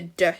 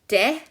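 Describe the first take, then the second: First: The d is said with almost no vowel. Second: The d is followed by a full vowel. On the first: The speaker calls it right. "we do just make the d sound" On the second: The speaker calls it wrong. "We don't make it de"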